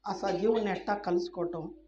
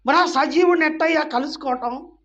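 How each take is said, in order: First: Said in the usual way. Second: Loud, high challenge to the congregation; pitched up, insistent asking; raised rhetorical question. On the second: Real, not acted. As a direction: put the question out at full voice. Rhetorical question, then repeated quietly.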